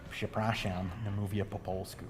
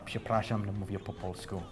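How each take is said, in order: First: It is said with an American accent. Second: It is said with a native-like Polish accent. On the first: "I try to put a little bit more American accent on it" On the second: "I say it well enough that people actually don't believe me"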